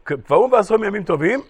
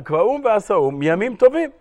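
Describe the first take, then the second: First: The words 'yamim tovim' are not emphasized. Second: The words 'yamim tovim' are emphasized. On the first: The festive days are not what was established. "מי שקורא את הגמרא בהסבר הקודם שאמרתי, אז הוא קורא את זה ככה" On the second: The festive days are the basis of what was established. "שומעים את ההבדל בקריאה של הגמרא"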